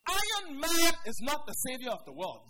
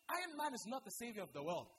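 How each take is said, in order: First: Much louder, hammering every word; loud repeat. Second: Said in the usual way. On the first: Shown as a demonstration. Preacher repeating his point to the congregation, loudly. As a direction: drive the point home hard.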